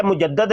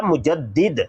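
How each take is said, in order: First: मुजद्दद said with a short a before the final d, mu-jad-dad; मुजद्दद, the rejected form, ending in -dad; wrong pronunciation. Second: मुजद्दिद said with a clear short i before the final d, mu-jad-did; मुजद्दिद, the corrected form, ending in -did; correct pronunciation. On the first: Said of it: "मुजद्दद नहीं लफ्ज़ होता". (मुजद्दद का गलत उच्चारण, आख़िर में 'दद') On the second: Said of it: "लफ्ज़ होता मुजद्दिद". (मुजद्दिद का सही उच्चारण, आख़िर में 'दिद') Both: Shown as a demonstration.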